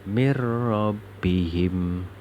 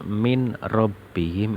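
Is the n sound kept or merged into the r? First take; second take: merged; kept. First: The n merges fully into the following r. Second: The n is sounded clearly before the r. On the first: The speaker calls it right. "Bacanya harus seperti itu" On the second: The speaker calls it wrong. "tidak boleh dibaca min rabbihim, itu tidak boleh"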